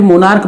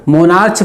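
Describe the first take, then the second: First: "मोनार्क" ending in a hard k; correct pronunciation. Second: "मोनार्च" ending in a ch sound; wrong pronunciation. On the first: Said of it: "मोनार्क पढ़ेंगे". ("मोनार्क" के अंत में क की आवाज़) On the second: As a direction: misread "मोनार्च" with ch as in church. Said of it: "मोनार्च पढ़ेंगे या फिर मोनार्क". ("मोनार्च" के अंत में च की आवाज़) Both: Shown as a demonstration.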